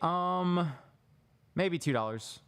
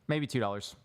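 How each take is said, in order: First: A filler 'um' comes before the answer. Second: A silent pause comes before the answer. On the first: The speaker sounds unsure. The speaker calls it wrong. "I would say, um" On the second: The speaker sounds confident. The speaker calls it right. "That pause versus saying um"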